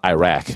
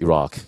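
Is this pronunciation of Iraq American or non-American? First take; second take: American; non-American. First: The word is said with an American pronunciation. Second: The word is said with a non-American pronunciation. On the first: The speaker calls it wrong. "it's not Iraq" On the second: The speaker calls it right. "it's Iraq"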